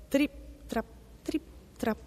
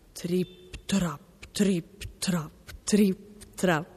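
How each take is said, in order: First: High, light little trip-trap steps; tiny hooves tapping out each word separately; light hoofsteps. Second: Weighty, separated trip-trap steps; each word a heavy hoof landing on the bridge; heavy hoofsteps. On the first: Small goat's hooves on the bridge. (zoccoletti leggeri, acuti e staccati) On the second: Big goat's heavy hooves on bridge. (zoccoli pesanti, scanditi e staccati) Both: A narrator's reading.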